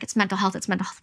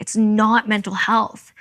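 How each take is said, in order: First: Said in the usual way. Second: Slow, heavy "not"; insisting to the doctors, hitting "not"; stress on not. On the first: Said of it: "They're like". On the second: Retold or imitated. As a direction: lean on "not" and drag it out. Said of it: "We're like".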